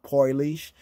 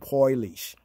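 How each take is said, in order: First: It uses the Yiddish speakers' pronunciation of the word. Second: It uses the Yiddish speakers' pronunciation of the word.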